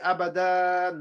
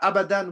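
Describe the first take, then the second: First: The final vowel is drawn out long. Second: The final vowel is kept short. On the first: The speaker calls it wrong. "We don't say" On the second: The speaker calls it right. "two fatha"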